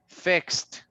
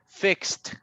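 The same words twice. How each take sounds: The two takes are said the same way.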